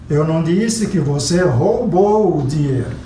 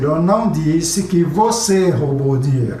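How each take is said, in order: First: The stress falls on the word roubou. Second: The stress falls on the word você. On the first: It was borrowed, not stolen. "você pegou emprestado" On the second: Another person stole it. "foi uma outra pessoa que roubou"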